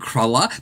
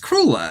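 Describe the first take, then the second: First: It is said like the pastry word cruller. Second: It is said like crueler, more cruel. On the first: The speaker calls it wrong. "I kept saying cruller, but it's not" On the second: The speaker calls it right. "it's crueler"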